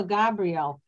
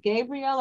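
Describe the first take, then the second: First: Gabrielle said as GAB-ree-el; short-A Gabrielle. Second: Gabrielle said as GAY-bree-el; long-A Gabrielle. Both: Shown as a demonstration. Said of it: "Is it Gabrielle or Gabrielle?".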